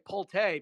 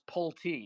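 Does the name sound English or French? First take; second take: French; English. First: The name is said with a French-sounding pronunciation. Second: The name is said with a plain English sound. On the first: The speaker calls it wrong. "then it sounds French" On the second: The speaker calls it right. "my name is pronounced Pulte"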